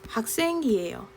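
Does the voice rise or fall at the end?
falls. The voice falls at the end.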